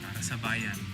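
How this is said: It sounds disappointed and let down.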